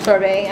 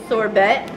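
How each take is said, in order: First: "Sorbet" with a silent T; "Sorbet" ending in an AY sound; corrected sorbet. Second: "sorbet" with a sounded final T; hard T ending on "sorbet"; mispronounced sorbet. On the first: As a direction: say "Sorbet" as sor-BAY. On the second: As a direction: say "sorbet" as sor-BET, rising. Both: Real, not acted.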